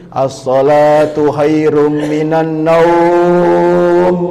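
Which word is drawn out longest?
naum. The word naum is drawn out long.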